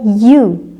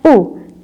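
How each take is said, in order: First: The vowel begins with a y glide. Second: A plain vowel sound with no glide. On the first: The speaker calls it right. "tetapi dibaca u atau y" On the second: The speaker calls it wrong. "bukan dibaca u"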